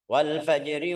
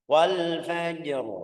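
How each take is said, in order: First: The r is light and followed by i. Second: The word ends on a heavy, thick r. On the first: The reader continues to the next word. "kalau lanjut lihat harakatnya" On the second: The reader stops on this word. "tebal kalau berhenti"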